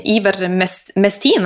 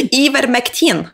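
First: Ivermestin said slowly with "st" in place of "kt"; usikker feiluttale. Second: Ivermectin repeated higher, with "kt" in place of "st"; corrected pronunciation. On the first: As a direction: stumble slowly through "Ivermestin", with an s before the t. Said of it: "Er det sånn det uttales". (nølende feiluttale «Ivermestin», med st) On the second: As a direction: echo "Ivermectin" carefully, higher, k before t. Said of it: "jeg er så utrolig dårlig". (rettet uttale av «Ivermectin», lysere, med kt) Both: Real, not acted.

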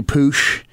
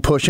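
First: "poosh" with a long oo vowel; Appalachian pronunciation. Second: Said in the usual way. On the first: Shown as a demonstration. Showing how home folk say push, Appalachian "poosh". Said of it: "you don't push anything". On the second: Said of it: "you poosh".

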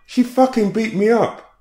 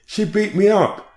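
First: "she" hit highest, a high loud screamed accusation; a woman screaming at the police, "she" hit hardest; agitated scream. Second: "me" wailed high and loud, slowly drawn out; a woman screaming at the police, slow high-pitched wail; agitated scream. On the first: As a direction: punch "she" as you scream it. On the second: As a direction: scream the accusation, stretching "me". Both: Retold or imitated. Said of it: "she screamed agitatedly".

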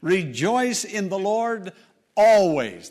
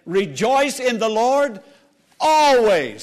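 First: Said in the usual way. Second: Raised preaching, ALWAYS rung out loud; fervent pulpit proclamation; emphatic exhortation. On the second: Real, not acted. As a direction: proclaim it and land hard on always. Repeats the verse with more force.

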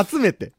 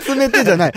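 First: 集めて with standard accent; right accent. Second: 集めて said with a risen, wrong pitch pattern, laughing; mock the wrong 集めて, laughing; 集めて with the wrong accent. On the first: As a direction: model the correct 集めて. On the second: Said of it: "違う". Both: Shown as a demonstration.

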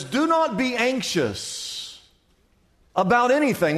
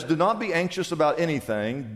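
First: "not" stressed, slow and raised; emphatic reading. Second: Said in the usual way. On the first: Acted. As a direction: lean hard on "not" in "Do not be anxious". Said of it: "Verse six in your Bible says". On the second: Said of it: "Verse six says".

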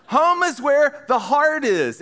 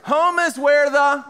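First: Slow, deliberate reading of the saying; quoting the adage. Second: Drawn-out lead-in for the crowd to finish; prompting the crowd. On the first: Speaker finishes the old adage for the audience, slow and deliberate. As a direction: lay the saying out slowly, word by word. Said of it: "you know the old adage". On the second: Speaker starts the old adage for the audience to complete, drawn out. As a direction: start the saying and leave it hanging. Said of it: "yeah, good job, guys". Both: Shown as a demonstration.

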